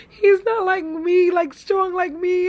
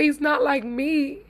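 First: Repeating his words, higher and tearful; the words catch as tears come; voice breaking, crying. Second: Said in the usual way. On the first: Real, not acted. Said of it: "you guys have me up here, crying". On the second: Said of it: "girl, I'm getting emotional even".

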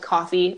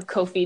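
First: "Ko-fi" said like the word coffee; "Ko-fi" with a short first vowel, as in coffee; coffee pronunciation. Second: "Ko-fi" said as KOH-fee; "Ko-fi" starting like the word co; long-o pronunciation. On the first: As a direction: say "Ko-fi" as COFF-ee. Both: Shown as a demonstration. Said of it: "depending on how you choose to read it".

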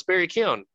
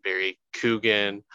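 First: 'Keoghan' said KYOH-an, the g barely there; 'Barry Keoghan' with a high lift, KYOH-an; quoting the Irish wife: 'Keoghan' as KYOH-an; Irish pronunciation. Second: 'Coogan' said KOO-gun, with a long oo; 'Coogan' as KOO-gun, an uncertain guess at the name; wrong pronunciation. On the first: Retold or imitated. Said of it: "my wife, who's Irish, is like". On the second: Shown as a demonstration. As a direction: give 'Barry Coogan' as KOO-gun, stress on the first syllable. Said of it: "I hear so many different pronunciations of his name".

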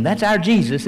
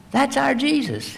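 First: Said in the usual way. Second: High joyful echo of the praise; rising praise. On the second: Real, not acted. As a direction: repeat it much higher with joy. Preacher repeats praise higher.

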